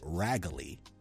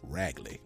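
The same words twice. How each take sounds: First: The word is said with more than two syllables. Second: The word is said with just two syllables. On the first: The speaker calls it wrong. "nor is it raggly" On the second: The speaker calls it right. "It's two syllables"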